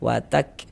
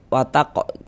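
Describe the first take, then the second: First: The final k ends with a soft breathy release. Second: The final k bounces with an added vowel. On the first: The speaker calls it right. "ada nafas yang mengalir ketika kita mengucapkannya. Nah, seperti memercik saja dia" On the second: The speaker calls it wrong. "salah kalau kayak gitu dia mantul"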